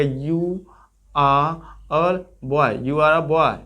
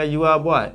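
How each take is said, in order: First: British English. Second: Said quickly. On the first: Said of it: "इस तरह बोला जाएगा". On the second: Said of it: "बहुत तेजी से बोला जाएगा". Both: Shown as a demonstration.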